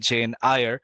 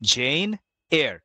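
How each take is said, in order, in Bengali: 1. সারনেমটি 'eye-ar' এর মতো করে বলা হয়। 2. সারনেমটি 'air' এর মতো করে বলা হয়। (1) "অথবা জেন আয়ার" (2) "the actual pronunciation is জেন এয়ার"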